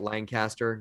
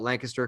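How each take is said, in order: First: Every syllable of the name is said clearly. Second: The name is squeezed into very few syllables. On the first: The speaker is not from the area. "like say all the syllables" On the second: The speaker is from the local area. "if you're from Pennsylvania, you just put it into one syllable"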